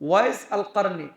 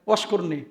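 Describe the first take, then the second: First: The name is said in three separate clear parts. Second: The name is merged into one short word. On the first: It is the original form of the name. "নাম শুনছেন না?" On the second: It is the common local way of saying it. "বাংলাদেশে সবাই বলে"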